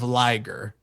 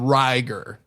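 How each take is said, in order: First: The word begins with an L sound. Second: The word begins with an R sound. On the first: This is the name as it really is. "instead of Liger" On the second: Japanese speakers say it this way. "they would call him Riger"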